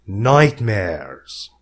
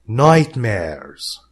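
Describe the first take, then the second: Both takes have the same delivery.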